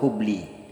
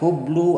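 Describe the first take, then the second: First: The word ends in an i vowel. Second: The word ends in a u vowel. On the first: "atau hubli" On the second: "Tidak boleh dibaca hublu"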